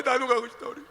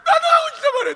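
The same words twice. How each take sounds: First: Put-on crying child; whimpering child. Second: High, loud insistent plea; loud begging child; shouting child. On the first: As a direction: whimper it through tears. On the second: Acted. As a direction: yell it stubbornly at mother. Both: Child pleading to mother.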